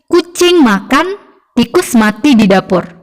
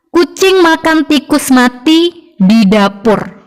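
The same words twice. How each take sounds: First: There is a pause after makan. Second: There is a pause after mati.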